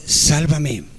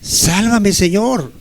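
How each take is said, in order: First: Quiet plea. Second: Preacher leading the prayer, the repeated cry lifted with more urgency; stronger plea. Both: Shown as a demonstration. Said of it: "Dile al Señor".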